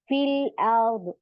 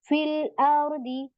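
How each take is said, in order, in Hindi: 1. यह वाक्यांश बिना स्वर वाले d व्यंजन पर खत्म होता है। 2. यह वाक्यांश छोटे i स्वर पर खत्म होता है। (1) "इसको भी हम क्या करेंगे, सुकून बना देंगे" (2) "यहाँ पे देखिए"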